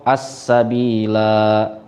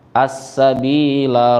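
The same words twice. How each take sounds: First: The final la vowel is held long. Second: The final la vowel is kept short. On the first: The reader stops at this word. "ketika waqaf as-sabila gitu ya" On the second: The word is joined to the next word. "kalau diwasolkan maka menjadi pendek la-nya"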